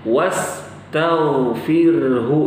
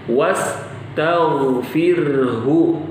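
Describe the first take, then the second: Both takes have the same delivery.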